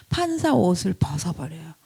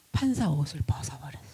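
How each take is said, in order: First: Said in the usual way. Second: Whispered. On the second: Acted. Whispered first take.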